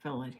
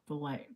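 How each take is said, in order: First: The word is said with a British accent. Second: The word is said with an American accent. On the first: "They say fillet here" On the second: "we'd say fillet"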